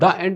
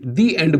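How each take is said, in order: First: The article is pronounced 'thuh' before the vowel. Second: The article is pronounced 'thee' before the vowel. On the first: The speaker calls it wrong. "हम द end नहीं बोलेंगे" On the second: The speaker calls it right. "दी एंड बोलेंगे उसको"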